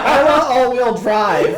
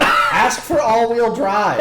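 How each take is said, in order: First: High, loud, slow kid imitation; four-year-old girl. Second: High, loud laughing prompt; slow, cracked-up retold coaching; feeding a line. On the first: Four-year-old repeating the fed line, loud child imitation. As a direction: demand it like a small child. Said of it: "She's like". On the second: Coaching the four-year-old between cackles, loud laughing prompt. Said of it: "I was like".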